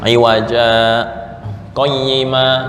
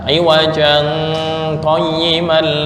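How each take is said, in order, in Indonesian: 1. Ada jeda singkat yang terputus-putus di antara kedua kata. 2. Kedua kata itu tersambung tanpa jeda sama sekali. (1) "ada tanda sin, yaitu berhenti sejenak tanpa nafas" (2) "nggak boleh dibaca"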